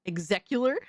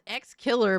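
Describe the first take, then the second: First: It is run together as one word, 'execular'. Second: It sounds like the letter X plus 'killer'. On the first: This is how the game's creator said it. "he pronounced it ex, execular" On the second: This is how the name is written. "It's X Killer"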